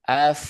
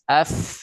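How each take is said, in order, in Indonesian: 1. Bunyi f cuma aliran napas yang lembut. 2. Bunyi f ada desisnya yang tajam. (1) "Dialirkan aja hamas. F tuh F" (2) "jadi kayak ada desis F gitu"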